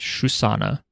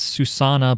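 First: The name begins with an SH sound. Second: The name begins with a plain S sound. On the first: "but they pronounced it Shusana" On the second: "whose name is Susanna"

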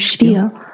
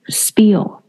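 First: The word begins with a sh sound. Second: The word begins with a plain s sound. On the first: "这个S 是发SH 的音。" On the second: "因为它是S-P 开始的，所以你刚才就是你第一次看到它的时候，你会讲说是spiel"

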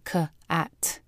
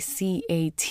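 First: Each letter is said by its letter sound. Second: Each letter is said by its letter name. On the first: The word is sounded out for reading. The speaker calls it right. "you say K-A-T" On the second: The word is spelled out letter by letter. The speaker calls it wrong. "you don't say C-A-T"

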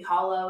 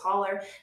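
First: It is said in a standard American accent. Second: It is said in an Appalachian accent. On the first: "hollow is technically what it's called" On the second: "but it's holler"

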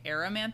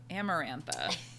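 First: The R sound comes before the M sound. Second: The M sound comes before the R sound. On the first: The speaker calls it wrong. "I've been saying Aramantha. I thought the R and the M were switched" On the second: The speaker calls it right. "So Amarantha"

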